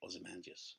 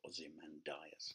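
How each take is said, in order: First: The word is squeezed into fewer syllables. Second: The word is said with all its syllables. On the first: The speaker calls it right. "you have to say" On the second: The speaker calls it wrong. "You can't say"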